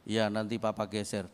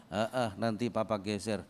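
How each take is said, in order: First: A husband who will never get round to it; lazy brush-off. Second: Couldn't care less, maybe later; lazy brush-off. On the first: Husband brushes off his wife's request, lazy low mumble. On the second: Husband brushes off his wife's second request, lazy low mumble. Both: Retold or imitated.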